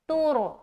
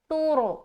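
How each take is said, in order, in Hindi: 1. पहला स्वर 'too' के 'oo' जैसा बोला जाता है। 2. पहला स्वर 'too' के 'oo' जैसा बोला जाता है।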